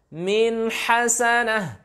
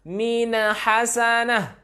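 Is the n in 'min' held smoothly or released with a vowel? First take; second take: held smoothly; vowel release. First: The n flows smoothly into h without a vowel. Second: The n is bounced with an added vowel. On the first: The speaker calls it right. "Tak boleh kita pantulkan" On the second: The speaker calls it wrong. "Ini bahaya"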